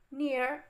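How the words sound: It is said in an American accent.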